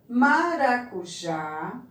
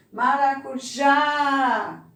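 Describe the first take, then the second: First: Said in the usual way. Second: Maracujá slowly, with a high, loud, long JÁ; stress on last syllable. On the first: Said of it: "nós temos primeiro banana". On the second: Shown as a demonstration. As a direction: land hard on the JÁ in Maracujá. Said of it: "No já".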